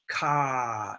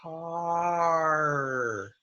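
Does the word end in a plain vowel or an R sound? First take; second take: plain vowel; R sound. First: The word ends in a plain vowel, no R. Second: The word ends with a moving R sound. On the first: The speaker calls it wrong. "It's not ah, ka" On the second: The speaker calls it right. "It's car"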